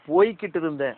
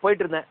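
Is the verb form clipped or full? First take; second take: full; clipped. First: The verb is said in its full careful form. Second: The verb is said in a clipped colloquial form. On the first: The speaker calls it right. "அப்படின்னு தான் சொல்லுவார்" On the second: The speaker calls it wrong. "என்னமோ நான் போயிட்டு இருந்தேன் அப்படிம்பாரு"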